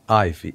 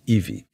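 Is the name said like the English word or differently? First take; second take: English; differently. First: It sounds like the English word ivy. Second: It is said as a non-English name. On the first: It names the climbing plant. The speaker calls it wrong. "it's not Ivy" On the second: It means the beautiful, promised land. The speaker calls it right. "it's Ivy. ... Ivy is a Guarani's name"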